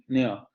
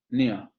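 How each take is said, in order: The two takes are said the same way.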